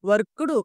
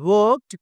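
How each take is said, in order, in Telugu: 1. ముగింపు ‘d’ శబ్దంగా పలకబడుతుంది. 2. ముగింపు ‘t’ శబ్దంగా పలకబడుతుంది.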